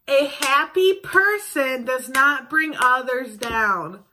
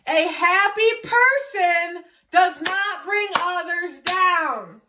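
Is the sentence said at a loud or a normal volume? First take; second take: normal; loud. First: The sentence is said at normal volume. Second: The sentence is said at loud volume. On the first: "I'm gonna say this, and I want you guys to repeat it after I say it" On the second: "then I'm gonna say it louder for the people in the back"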